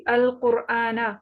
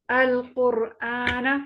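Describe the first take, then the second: First: अल कुरआना with a full heavy र. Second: अल कुरआना drawn out slowly with heavy र. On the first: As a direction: read अल कुरआना slowly, र thick. (र को पुर पढ़ते हुए अल कुरआना) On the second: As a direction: slowly recite अल कुरआना, र full. (अल कुरआना धीरे, र पुर) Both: Shown as a demonstration. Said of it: "रॉ पुर पड़ जाएगी".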